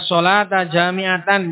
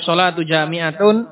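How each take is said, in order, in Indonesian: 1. Kata-kata itu berakhir dengan vokal a dan an. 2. Kata-kata itu berakhir dengan vokal u dan un. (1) "bisa dibaca as-shalata jami'atan, jami'atan sebagai hal" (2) "bisa dibaca as-shalatu jami'atun muqtada khobar"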